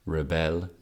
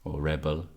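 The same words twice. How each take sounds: First: "rebel" said ri-BEL, stress on the second syllable; "rebel" as the verb, weak first syllable, stress on BEL. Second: "rebel" said REB-el, stress on the first syllable; "rebel" as the noun, strong REB, light second syllable. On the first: Teacher showing the verb form, "rebel" stressed ri-BEL. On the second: Teacher showing the noun form, "rebel" stressed REB-el. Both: Shown as a demonstration. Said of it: "Depends if it's a verb or a noun".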